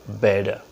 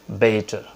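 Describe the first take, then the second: No difference in how they are said.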